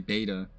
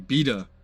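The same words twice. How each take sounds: First: The word is said in a non-British way. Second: The word is said in a British way. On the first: "We just have to say beta" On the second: "the Brits say beta"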